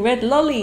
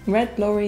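First: The last word is said with an L sound in the middle, as 'lolly'. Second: The last word is said with an R sound in the middle, as 'lorry'. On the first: The speaker calls it wrong. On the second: The speaker calls it right.

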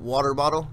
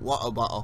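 First: It is said in a non-British accent. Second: It is said in a British accent. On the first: "we pronounce it water bottle" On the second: "You guys pronounce it water bottle"

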